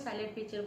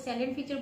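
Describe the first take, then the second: First: The first word has two syllables, like 'silent'. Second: The first word has three syllables, like 'salient'. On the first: "कोई साइलेंट feature बोलता है" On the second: "कोई सैलिएंट feature बोलता है"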